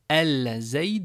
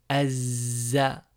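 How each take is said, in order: First: The L of the article is clearly pronounced. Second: The L merges into a doubled Z sound. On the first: The speaker calls it wrong. "Je ne dis pas el zaïd" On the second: The speaker calls it right. "mais azza"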